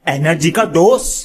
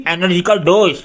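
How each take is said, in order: First: Punchy ad-style tagline with a rising end; jingle-style product pitch. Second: Said in the usual way. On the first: Acted. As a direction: sell it like a TV commercial.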